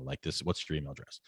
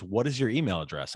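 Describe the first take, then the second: First: Softer, proper restatement of "what's your email address"; prim professional phrasing. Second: Said in the usual way. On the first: Retold or imitated. Tutor modelling the proper way to ask. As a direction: say it the polite professional way. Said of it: "keep it professional". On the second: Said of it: "And she goes".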